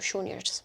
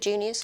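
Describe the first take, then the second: First: It starts without any J sound. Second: It starts with an English J sound.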